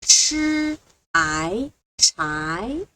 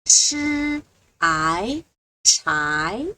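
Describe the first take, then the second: The two takes are said the same way.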